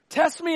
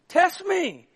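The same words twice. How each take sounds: First: It is said in a plain, reading tone. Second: It is said in a teasing, challenging tone.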